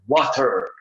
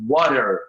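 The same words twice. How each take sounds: First: British accent, with a clear, crisp t sound. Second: American accent, the t sounds like a soft r. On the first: "no inglês britânico, no Reino Unido, eles vão falar water" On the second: "no americano, nos Estados Unidos, vão falar water, com o som de R lá no T"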